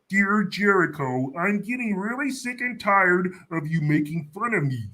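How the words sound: It is said in a Kermit the Frog voice.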